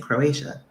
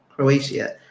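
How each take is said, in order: First: It has an American English pronunciation. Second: It has a Portuguese-style pronunciation. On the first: This is how it is said in the US. "I think in the U S we say Croatia" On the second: This is how it is said in Portugal. "I say it like that now. Croatia is how you pronounce it in Portuguese"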